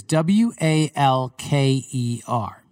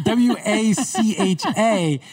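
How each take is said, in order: First: Slowly spelling W A L K E R letter by letter; spelled letter by letter. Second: W A C H A spelled slowly, higher, mocking the sound; spelled as heard. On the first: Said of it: "his last name is". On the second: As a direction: spell W A C H A slowly to mock Waka. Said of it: "he said the W A C H A". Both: Shown as a demonstration.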